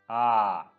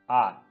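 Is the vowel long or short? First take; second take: long; short. First: The vowel is drawn out long. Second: The vowel is short.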